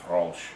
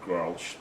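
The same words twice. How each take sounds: First: It is said the way Dutch speakers say it. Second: It is said as the English spelling suggests. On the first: The speaker calls it right. "They pronounce it Grolsch" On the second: The speaker calls it wrong. "they don't pronounce it Grolsch"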